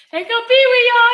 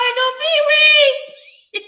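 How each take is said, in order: First: High, loud laughing call; laughing through words. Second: Slow drawn-out laughing. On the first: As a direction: call it out while cracking up. Announces Pee-wee while laughing. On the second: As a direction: stretch it out high and slow. Repeats the call, drawn out. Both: Real, not acted.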